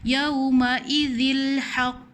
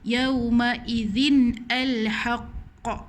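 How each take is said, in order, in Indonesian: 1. Bunyi nun dihilangkan sepenuhnya sebelum haqq. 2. Nun berhenti, lalu al dibaca terpisah. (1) "kita terus masuk je. ... Salah" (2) "takkan nak baca yauma idzin al-haqq. Salah"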